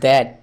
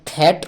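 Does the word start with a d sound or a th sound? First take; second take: d sound; th sound. First: The word starts with a d sound. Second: The word starts with a breathy t sound. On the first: The speaker calls it right. "এটা দ্যাট" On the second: The speaker calls it wrong. "এটা থ্যাট নয়"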